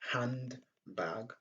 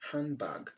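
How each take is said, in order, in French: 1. Le son d est bien prononcé. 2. Le son d est omis. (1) "Au lieu de dire handbag" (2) "on dit handbag"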